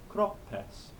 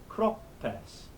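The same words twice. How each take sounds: No difference in how they are said.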